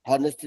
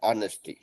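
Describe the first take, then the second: First: The word starts with an h sound. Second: The word starts with a vowel sound. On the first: The speaker calls it wrong. "हॉनेस्टी नहीं होगा" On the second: The speaker calls it right. "होगा ऑनेस्टी"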